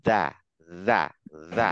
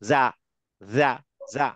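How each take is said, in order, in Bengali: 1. ব্যঞ্জনটি একটি নরম, সুরযুক্ত th-এর মতো শব্দ। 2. ব্যঞ্জনটি z-এর মতো গুঞ্জনধ্বনি। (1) "জিভটা ওই দাঁতের মাথায় রাখেন, ধরে রেখে" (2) "অনেকে উচ্চারণ করছে এরকম"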